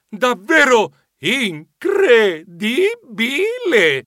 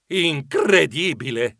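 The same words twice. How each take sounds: First: Very slow, higher incredibile; amazed. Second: Slow amazed incredibile. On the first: Geronimo marvelling, much slower and higher. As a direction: stretch incredibile out in wonder. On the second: Geronimo marvelling at the adventure, slow amazement. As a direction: draw out incredibile in wonder. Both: Shown as a demonstration. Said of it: "questa avventura è stata incredibile".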